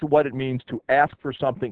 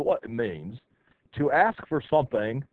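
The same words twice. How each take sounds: First: It is said in a plain American accent. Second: It is said in a put-on British accent.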